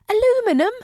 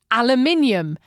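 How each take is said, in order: First: It is said with four syllables, the American way. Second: It is said with five syllables, the British way. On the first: "What's that?" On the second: "That's the name of the foil stuff"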